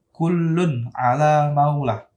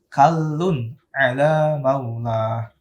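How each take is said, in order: First: The first vowel is u. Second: The first vowel is a. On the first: The speaker calls it wrong. "Jangan sampai dibaca" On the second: The speaker calls it right.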